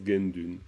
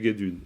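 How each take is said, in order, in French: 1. Il se dit avec un « n » avant le « d ». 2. Il se dit sans « n » avant le « d ». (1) "les Tibétains, ils prononcent Gendun" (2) "si on lit, heu, littéralement, ça fait guédune"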